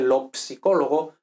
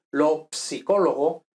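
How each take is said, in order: First: Lo psicólogo with the P sounded, at normal speed; Italian pronunciation. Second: Lo psicólogo with the P clearly sounded before the s; Italian pronunciation. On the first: Teacher repeating the word for students, P sounded. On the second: Teacher showing students that Italian sounds the P, slow and careful. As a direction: say psicólogo slowly, sounding ps at the start. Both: Shown as a demonstration. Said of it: "en italiano se pronuncia la P también".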